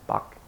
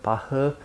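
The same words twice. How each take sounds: First: The name is said the English way. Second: The name is said the Korean way. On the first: "American or English speakers say Bach" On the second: "In Korean say Bach"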